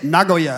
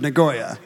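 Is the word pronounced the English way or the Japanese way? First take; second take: Japanese; English. First: The word is said with a Japanese-style pronunciation. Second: The word is said with an English-style pronunciation. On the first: The speaker calls it right. "now I say Nagoya" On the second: The speaker calls it wrong. "instead of Nagoya"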